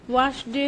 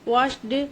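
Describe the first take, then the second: The two takes are said the same way.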